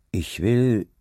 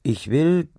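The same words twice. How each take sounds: First: Bedächtig angesetzt, mit Pause danach; „Ich will“ langsam und gewichtig sagen. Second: „ich will“ höher angesetzt, mit Nachdruck auf „will“; entschlossener Neuansatz. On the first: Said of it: "sagte er langsam". (langsam, bedächtig) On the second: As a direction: nach dem Innehalten „will“ entschlossen betonen. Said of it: "hielt dann einen Augenblick inne". (entschlossen, „will“ hoch betont) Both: A narrator's reading.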